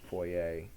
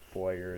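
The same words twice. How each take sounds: First: The word ends with a French-style 'ay' sound. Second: The word ends with an English 'er' sound. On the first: The speaker calls it right. "It's foyer. ... It's French" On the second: The speaker calls it wrong. "it looks like foyer, but foyer is wrong"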